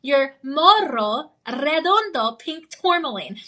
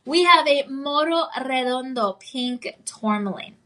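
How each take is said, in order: First: "morro redondo" with trilled Rs, "tourmaline" plain; rolled R. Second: Said in the usual way. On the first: Shown as a demonstration. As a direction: roll the R in "morro" and "redondo", slowly. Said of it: "I have to roll the R twice". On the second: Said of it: "I can roll my R better than that".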